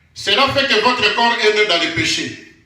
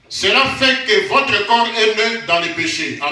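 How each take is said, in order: Both takes have the same delivery.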